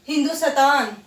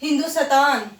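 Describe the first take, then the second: First: The half consonant is said with a full vowel. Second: The half consonant is said with a full vowel.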